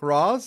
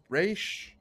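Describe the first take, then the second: First: The name is said as 'Roz'. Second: The name is said as 'Raish'. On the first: The speaker calls it wrong. "Roz, is that how you pronounce it? It's like, no" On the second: The speaker calls it right. "It's Raish Al Ghul, for the love of God"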